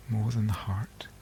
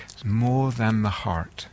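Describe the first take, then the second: First: Soft, near-whispered echo; hushed repeat. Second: Said in the usual way. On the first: Real, not acted. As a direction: let the point sink in, very softly.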